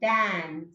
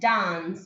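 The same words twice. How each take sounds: First: It is said in an American accent. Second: It is said in a British accent. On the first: "when it comes to American" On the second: "it is the right pronunciation of uh, British R P"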